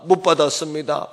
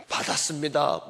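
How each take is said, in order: First: "못" punched louder; stress on 못. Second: Said in the usual way. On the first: Shown as a demonstration. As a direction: hit the word 못. ("못"에 힘을 줘서) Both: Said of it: "contrast takes".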